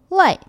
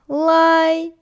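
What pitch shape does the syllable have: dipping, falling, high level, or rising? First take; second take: falling; high level. First: The pitch falls sharply from high to low. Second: The pitch stays high and level.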